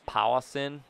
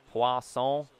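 First: Poisson flattened into English "POW-uh-sin"; anglicised Poisson. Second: Poisson said the French way, "pwah-sohn"; French accent. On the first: Player toys with a French word, anglicised Poisson. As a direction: say Poisson with English vowels and a sounded final n. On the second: Player toys with a fun word, French accent. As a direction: say poisson in French, with a nasal ending. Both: Shown as a demonstration. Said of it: "say in a French accent".

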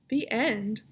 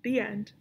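First: Mildly indignant question; a touch of indignant disbelief. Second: Said in the usual way. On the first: A narrator's reading. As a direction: echo it back in mild indignation. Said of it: "said Aibileen indignantly". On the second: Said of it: "said Pellegrina".

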